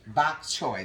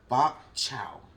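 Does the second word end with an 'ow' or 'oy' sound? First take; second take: oy; ow. First: The second word ends with an 'oy' sound. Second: The second word ends with an 'ow' sound. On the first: The speaker calls it right. "It's pronounced bok choy" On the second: The speaker calls it wrong. "let me say this right"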